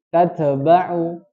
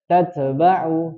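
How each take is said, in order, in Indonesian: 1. t dipantulkan dengan lepasan yang bergema. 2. t dipantulkan dengan lepasan yang bergema.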